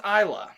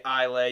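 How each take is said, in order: First: "Isla" ending in "luh", not "lay"; correct Islay pronunciation. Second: "Islay" with a silent s, ending "lay"; mispronounced Islay. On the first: Host corrects the label reading for guests, "Isla" as EYE-luh. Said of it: "It's actually pronounced Isla". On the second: Host shows guests the likely misreading, "Islay" as EYE-lay. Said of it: "it looks like it's pronounced". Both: Shown as a demonstration.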